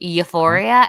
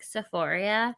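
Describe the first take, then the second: First: The word begins with a Y sound. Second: The word begins with an S sound. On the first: The speaker calls it right. "they meant to say euphoria" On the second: The speaker calls it wrong. "they can't even pronounce it right... they call it like Sephoria"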